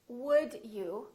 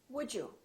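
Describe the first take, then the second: First: The d and y sounds stay separate. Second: The d and y blend into a j sound.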